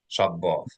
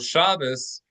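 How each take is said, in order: First: The word ends with a t sound. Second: The word ends with an s sound. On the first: "the Hebrew word Shabbat" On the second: "Shabbos is a Yiddish pronunciation"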